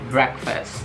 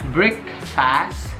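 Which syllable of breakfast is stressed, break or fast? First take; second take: break; fast. First: The stress is on the first syllable. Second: The stress is on the second syllable. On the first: The speaker calls it right. "penekanannya itu di break" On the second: The speaker calls it wrong. "bukan breakfast"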